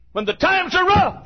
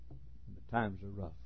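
First: Shouted preaching. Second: Quiet preaching. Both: Acted.

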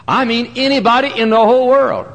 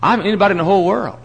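First: Higher, louder, stretched out on world; a rising preacher's cry; emphatic. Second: Said in the usual way. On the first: Shown as a demonstration. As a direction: hammer home the whole world.

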